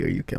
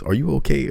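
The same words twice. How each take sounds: First: Only a hint of the worried mom; lightly voiced mother repeating the question; calmer repeat of mom. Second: High, pressing mom voice, higher and louder; imitating a frantic mom on the phone; worried mom. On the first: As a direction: ask it again, nearly plain. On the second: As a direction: ask it like a panicked mother. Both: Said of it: "all she said was".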